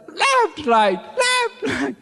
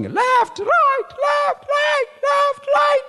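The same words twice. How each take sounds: First: High shouted left-right count; march in place and bark the count; drill shout. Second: High shouted marching count; drill shout. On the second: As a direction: bark the marching count like a recruit on parade. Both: Retold or imitated. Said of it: "you are supposed to be shouting".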